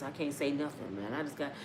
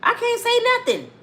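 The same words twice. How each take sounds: First: "I can't say nothing" almost breathed, much softer; hushed despair. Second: Emphatic. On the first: Retold or imitated. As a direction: let "I can't say nothing" die in your throat. [name] voiced, despairing about kids. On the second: Real, not acted. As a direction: blast "I can't say nothing" out. Comedian restating emphatically.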